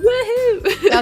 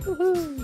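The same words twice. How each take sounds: First: It is said loudly, with lots of energy. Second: It is said weakly, with little energy.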